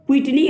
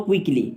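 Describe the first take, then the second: First: "क्विकली" said with a T, "kwit-lee"; word contrast. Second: "क्विकली" said with a K, "kwik-lee"; word contrast. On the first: Teacher separating two look-alike words, "क्विकली" pronounced "kwit-lee". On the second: Teacher separating two look-alike words, "क्विकली" pronounced "kwik-lee". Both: Shown as a demonstration. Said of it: "ये दोनों अलग word हैं".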